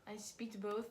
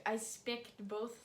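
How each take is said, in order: First: "speaked" said with a long ee; softly botched "speaked", long vowel; deliberate wrong verb. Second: "spicked" said with a short i; slow, deliberately botched "spicked"; deliberate mispronunciation. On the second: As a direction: muddle the verb into "spicked", short vowel. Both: Pretend. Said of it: "I did that on purpose".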